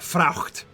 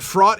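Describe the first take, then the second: First: A throaty ch sound comes before the t. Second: No throaty sound comes before the t. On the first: This is the older, medieval pronunciation. "fraucht is how you'd pronounce it in Middle English" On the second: This is the present-day pronunciation. "Fraught is a cool word enough on its own"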